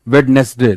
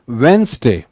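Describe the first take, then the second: First: A d sound is heard in the middle. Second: No d sound is heard in the middle. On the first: The speaker calls it wrong. "That is incorrect" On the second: The speaker calls it right. "डी नहीं बोलना है"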